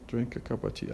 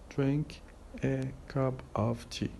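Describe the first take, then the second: First: Consonants run into the following vowels, linking words. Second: Each word is said carefully and separately. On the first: "as if we pronounce two words rather than five" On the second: "This is how we say this expression in careful uh, pronunciation"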